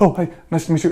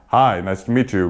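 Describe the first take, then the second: First: It is said hurriedly and nervously. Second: It is said slowly and calmly.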